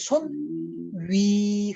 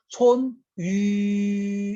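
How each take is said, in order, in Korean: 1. 위의 모음은 i 소리로 넘어가요. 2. 위의 모음은 처음부터 끝까지 그대로예요. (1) "그럼 바뀌죠" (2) "안 바뀌었어요"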